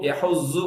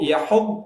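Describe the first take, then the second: First: The final consonant sounds like a z. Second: The final consonant is a heavy emphatic d. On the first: The speaker calls it wrong. "அப்படி சொல்லக்கூடாது" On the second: The speaker calls it right. "அப்படி சொல்லும் போது அந்த நாக்கு வந்து ரெண்டு கடவாய்ப்பல்ல டச் பண்ணி"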